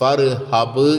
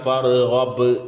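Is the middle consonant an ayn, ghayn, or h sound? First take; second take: h; ghayn. First: The middle consonant is a breathy h sound. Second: The middle consonant is a gargled ghayn sound. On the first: The speaker calls it wrong. "ഫർഹബ് എന്ന് പറയരുത്" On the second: The speaker calls it right. "ഓ ഐനിന് പുള്ളിട്ടേക്കാണ്"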